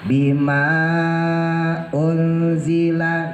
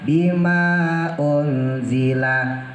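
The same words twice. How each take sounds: First: The long vowel is held for four counts. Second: The long vowel is held for two counts. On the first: "Boleh dibaca ausat empat, antara dua dan enam" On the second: "Boleh dibaca dua"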